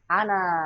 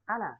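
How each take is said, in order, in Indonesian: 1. Vokal akhirnya dibaca panjang. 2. Vokal akhirnya dibaca pendek. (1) "tidak boleh dibaca panjang kecuali kalau dibaca di akhir" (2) "kalau di tengah ana pendek"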